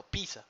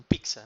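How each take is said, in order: First: "pizza" as PEE-sa, no k; pizza said as "pisa". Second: "pizza" with an added k: PIK-sa; pizza said as "piksa". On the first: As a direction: softly correct "pizza" to PI-sa. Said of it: "no, pizza". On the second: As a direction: put a k before the s in "pizza". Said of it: "sin, sin el acento". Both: Shown as a demonstration.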